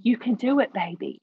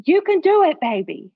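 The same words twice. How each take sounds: First: Put-on mildly lifted cheer, easing down on "baby"; retold fatherly encouragement. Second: Put-on high, loud yell of encouragement, dropping on "baby"; imitating dad's scream. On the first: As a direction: encourage without shouting. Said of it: "running up and down the banks of their life saying". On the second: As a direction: holler it like a cheering dad on the shore. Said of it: "he's screaming to the top of his lungs".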